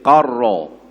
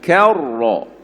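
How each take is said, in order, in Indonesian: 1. Konsonan pertama dilafalkan berat, dalam di tenggorokan. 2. Konsonan pertama dilafalkan ringan, lebih ke depan. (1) "dia tertebal kaf" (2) "cuba sebut ka"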